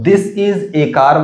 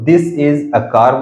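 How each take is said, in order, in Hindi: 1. इस आर्टिकल को लंबे 'ay' की तरह बोला जाता है। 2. इस आर्टिकल को छोटे 'uh' की तरह बोला जाता है। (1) "कोई इसको दिस इज ए कार बोलता है" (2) "कोई इसको दिस इज अ कार बोलता है"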